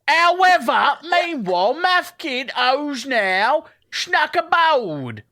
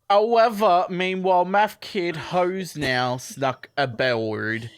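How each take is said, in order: First: It is read in a put-on English accent. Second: It is read in the speaker's plain accent.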